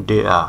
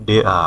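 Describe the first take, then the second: The two takes are said the same way.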